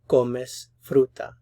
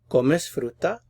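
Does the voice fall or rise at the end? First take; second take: fall; rise. First: The voice falls at the end. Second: The voice rises at the end. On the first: It is a statement. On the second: It is a question.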